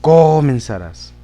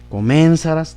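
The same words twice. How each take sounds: First: The stress is on the first syllable, co. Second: The stress is on the third syllable, sa. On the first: "en la co, ... ahí no quedaría" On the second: "tampoco quedaría en la sa"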